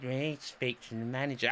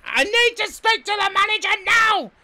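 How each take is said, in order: First: Said in the usual way. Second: Very high, loud mock demand; imitated shouting. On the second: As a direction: screech it like a furious hotel guest. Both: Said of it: "Fucking shouting the place".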